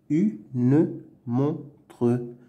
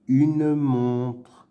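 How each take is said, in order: First: "Une montre" as "u", "ne", "mon", "tre"; syllable by syllable. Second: Said in the usual way. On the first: Shown as a demonstration. Teacher sounding out words to read, "Une montre" in separate syllables. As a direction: sound the final e's in a split "Une montre". Reading drill, split then blended.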